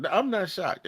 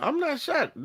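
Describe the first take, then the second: First: Said in the usual way. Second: "not shocked" pitched high and pressed hard; emphatic denial. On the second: Real, not acted. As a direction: push the first "I'm not shocked" up high.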